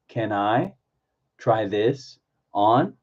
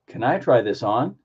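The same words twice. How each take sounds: First: The words are grouped into small chunks. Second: The phrase flows together at normal speed. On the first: "Chunk it" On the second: "Put it all together"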